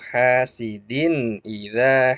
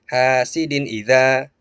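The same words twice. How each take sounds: First: The phrase is said carefully with full vowels. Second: The phrase is rushed, clipping the vowels. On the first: The speaker calls it right. "diperjelas dulu" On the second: The speaker calls it wrong. "jangan juga terlalu cepat"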